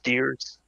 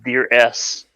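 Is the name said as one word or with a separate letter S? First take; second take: one word; separate S. First: The final S is blended into one word. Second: The final S is spoken as a separate letter. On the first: The speaker calls it right. "It's pronounced Deers" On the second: The speaker calls it wrong. "I always read it as Deer S because of how it looks"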